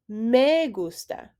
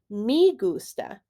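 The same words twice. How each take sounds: First: The word 'me' has a Spanish vowel. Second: The word 'me' has an English-like vowel. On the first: The speaker calls it right. "instead of me gusta" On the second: The speaker calls it wrong. "Many native English speakers will say me gusta"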